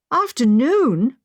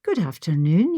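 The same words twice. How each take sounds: First: Slow, louder startled echo of the word; taken aback, dragging the word out; surprised exclamation. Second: Said in the usual way. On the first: A narrator's reading. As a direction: catch the word in dismay. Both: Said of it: "I exclaimed".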